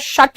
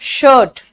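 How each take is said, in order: First: The word is said short and clipped. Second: The word is said stretched and drawn out. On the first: The speaker calls it wrong. "बेटा शर्ट नहीं" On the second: The speaker calls it right. "थोड़ा सा खींचो"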